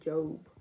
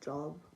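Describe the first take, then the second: First: It is said in an American pronunciation. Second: It is said in a non-American pronunciation.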